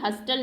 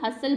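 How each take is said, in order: First: The t sound is pronounced. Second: The t sound is silent. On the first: The speaker calls it wrong. "हस्टल नहीं बोलते हैं" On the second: The speaker calls it right. "हसल बोलते हैं"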